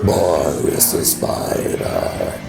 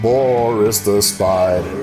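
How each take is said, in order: First: It is said in a low, growly voice. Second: It is said in a normal voice. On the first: "that growly voice where you drop your voice" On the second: "instead of"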